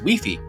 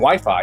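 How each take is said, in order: First: The vowels sound like 'ee'. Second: The vowels sound like 'eye'. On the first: The speaker calls it right. "the I is pronounced like an E" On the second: The speaker calls it wrong. "it's not Wi-Fi"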